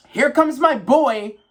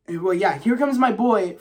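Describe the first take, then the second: First: Slow, higher, louder announcer-style call; hype entrance call. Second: Said in the usual way. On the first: Retold or imitated. Hyping his favourite fighter's entrance, a slow higher announcer call. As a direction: drag it out like a ring announcer.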